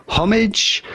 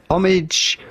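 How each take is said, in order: Both takes have the same delivery.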